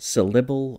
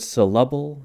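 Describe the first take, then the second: First: The second syllable has an ih vowel. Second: The second syllable has an uh vowel. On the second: "it can sound kind of like an uh"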